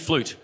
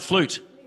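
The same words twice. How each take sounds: First: The word is said in a calm, plain voice. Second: The word is said loudly with excited energy.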